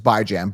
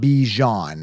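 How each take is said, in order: First: The first syllable sounds like 'bye'. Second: The first syllable sounds like 'bee'. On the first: The speaker calls it right. "Bi is in bi-weekly, you know, Jan is in Rand" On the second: The speaker calls it wrong. "not Bijan. Like, I don't see a B E E J H O N anywhere"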